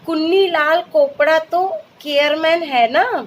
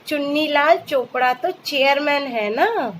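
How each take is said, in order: First: The C words are said with a k sound. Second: The C words are said with a ch sound. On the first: The speaker calls it wrong. "यहाँ सी को क नहीं च बोलेंगे" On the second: The speaker calls it right. "जैसे"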